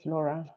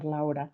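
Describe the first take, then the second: First: Laura said as LOR-uh; first syllable of Laura rhymes with "law"; English pronunciation. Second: First syllable of Laura rhymes with "cow"; alternative pronunciation. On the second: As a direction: say Laura with an "ow" diphthong. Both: Shown as a demonstration. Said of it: "want to pronounce it".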